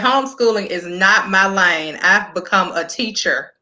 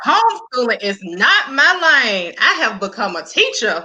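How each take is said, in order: First: It is read flatly, with little emotion. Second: It is read with strong, exclaiming emotion.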